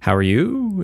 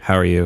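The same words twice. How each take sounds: First: The voice goes up at the end. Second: The voice goes down at the end. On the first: It sounds like a question. "when you ask a question, your voice goes up at the end" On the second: It does not sound like a question. "Because if I didn't do that, I'd be like, how are you? It doesn't really make sense"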